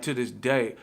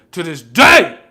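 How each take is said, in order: First: Said in the usual way. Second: Yelled, much higher and louder; sudden yell. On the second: Real, not acted. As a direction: blow up on the repeat. Repeats phrase, second one exploding.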